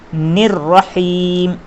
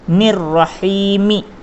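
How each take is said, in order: First: The word ends on a bare 'm' sound. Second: The word ends with an added 'i' vowel. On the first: The speaker calls it right. "इस तरह से रुकेंगे, यानी कि यह आखिरी मीम के ऊपर जज़्म लगा देंगे" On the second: The speaker calls it wrong. "इस तरह से नहीं रुकेंगे"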